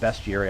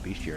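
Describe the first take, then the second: First: The first syllable sounds like 'best'. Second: The first syllable sounds like 'beast'. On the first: "or how you want to pronounce it" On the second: "I call it bestiary. It's got beast in it"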